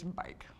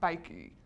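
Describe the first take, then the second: First: The word ends cleanly on the k sound. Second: An extra vowel sound follows the final k. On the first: The speaker calls it right. "I don't say that E at the end" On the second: The speaker calls it wrong. "It's not bikey"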